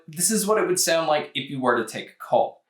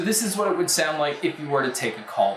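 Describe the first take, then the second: First: The voice is heard with a quiet background. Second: The voice is heard over background crowd noise. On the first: "here is a mic test using the Earfun Free two" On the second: "here is a mic test with a crowd noise being played"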